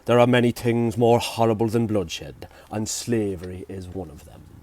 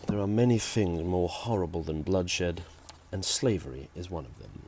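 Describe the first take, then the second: First: It is said in an Irish accent. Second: It is said in the speaker's usual accent.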